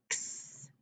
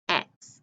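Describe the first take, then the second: First: X as a breathy ks hiss, almost silent; letter sound. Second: Said in the usual way. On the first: Shown as a demonstration. Teacher gives the sound of the fox card, breathed.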